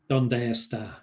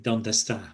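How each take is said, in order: First: The two words are said separately. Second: The two words merge together in fast speech.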